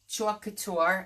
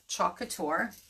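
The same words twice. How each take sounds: First: It is said in a Brooklyn accent. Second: It is said in a neutral accent.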